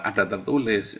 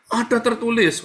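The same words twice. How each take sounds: First: Said in the usual way. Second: High-pitched mock proclamation; imitating the devil. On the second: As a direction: quote the devil in a raised, insistent voice. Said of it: "katanya setan ya kan".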